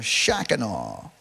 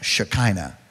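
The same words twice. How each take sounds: First: It is said in a Southern American accent. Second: It is said in a standard, neutral accent.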